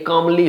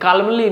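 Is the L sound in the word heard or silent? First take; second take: silent; heard. First: The L sound is left out of the word. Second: The L sound is pronounced in the word. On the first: The speaker calls it right. "ये कामली होता है, एल silent होता है" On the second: The speaker calls it wrong. "कालमली नहीं होता"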